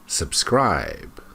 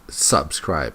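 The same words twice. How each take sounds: First: The stress is on the second syllable. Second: The stress is on the first syllable. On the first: The speaker calls it right. "the stress is on the second syllable" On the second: The speaker calls it wrong. "it's not subscribe"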